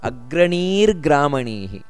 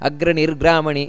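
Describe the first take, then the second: First: The final vowel is held long. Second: The final vowel is cut short. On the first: The speaker calls it right. "ಅಗ್ರಣೀಹಿ ದೀರ್ಘ ಇದೆ ಅಲ್ಲಿ" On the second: The speaker calls it wrong. "ಈ ರೀತಿಯಲ್ಲ"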